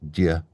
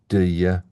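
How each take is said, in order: First: The words are reduced and run together. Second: Both words are said fully and separately.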